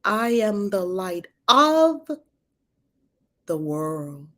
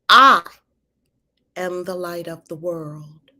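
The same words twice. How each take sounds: First: The stress falls on the word "of". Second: The stress falls on the word "I".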